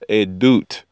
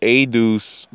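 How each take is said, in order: First: The word ends with a t sound. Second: The word ends with an s sound.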